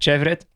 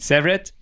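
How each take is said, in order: First: The name begins with a sh sound. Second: The name begins with an s sound. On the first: The speaker calls it wrong. "nicht Chevret" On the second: The speaker calls it right. "Severed, nicht Chevret"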